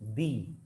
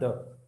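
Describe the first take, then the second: First: It is said with a long 'ee' vowel. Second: It is said with a short 'uh' vowel. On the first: It comes before a word starting with a vowel. "Whenever you use a vowel, the pronunciation of the becomes the" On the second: It comes before a word starting with a consonant. "it's not the"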